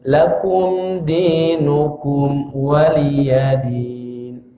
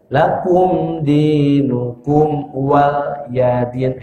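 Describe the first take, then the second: First: The last word is said as 'waliyadin'. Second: The last word is said as 'wal yadin'. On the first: It keeps the meaning 'for me is my religion'. The speaker calls it right. "Yang benar waliyadin" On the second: The meaning of the phrase changes. The speaker calls it wrong. "Itu salah"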